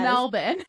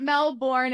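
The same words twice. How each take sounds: First: Melbourne is pronounced the Australian way. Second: Melbourne is pronounced in a non-Australian way. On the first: The speaker calls it right. "you pronounce Melbourne like an Australian" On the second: The speaker calls it wrong. "It's not Melbourne"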